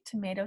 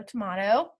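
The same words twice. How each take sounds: First: Tomato said as tuh-MAY-toh; long AY in the middle of tomato; tomayto pronunciation. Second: Tomato said as tuh-MAH-toh; tomahto pronunciation. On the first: Teacher shrugging off two pronunciations, tomato as tuh-MAY-toh. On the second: Teacher shrugging off two pronunciations, tomato as tuh-MAH-toh. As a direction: open AH in the middle of tomato. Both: Shown as a demonstration. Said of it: "either way".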